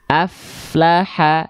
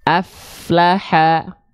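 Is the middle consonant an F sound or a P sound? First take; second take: F sound; F sound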